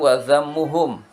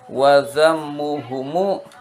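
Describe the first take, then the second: First: The word ends on the consonant m. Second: The word ends with an added short vowel. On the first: This is the original grammatical form. "asalnya wazammuhum" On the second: The form is adjusted to fit the poem's meter. "karena syair akan membaca wazammuhumu"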